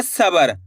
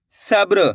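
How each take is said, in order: First: "सबर" with a full vowel between ब and र; wrong-way demo. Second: "सब्र" with ब and र joined as br; correct cluster demo. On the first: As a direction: split the cluster in "सबर", saying sa-bar. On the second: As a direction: say "सब्र" as sab-ru, no vowel before the r. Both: Shown as a demonstration. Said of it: "ऐसे नहीं पढ़ना".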